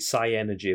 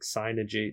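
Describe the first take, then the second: First: It is said as four syllables, psy-energy. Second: It is said as three syllables, synergy. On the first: "I always pronounce it Psy-Energy" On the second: "I don't think it has an E in it. It's like Synergy"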